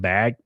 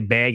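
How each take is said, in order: First: The vowel is said in a standard accent. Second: The vowel is said in a Wisconsin-style accent. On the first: This is the usual way to say it. "instead of bag" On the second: This is how the other person says it. "Why do you say bag"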